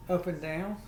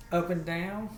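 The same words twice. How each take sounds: The two takes are said the same way.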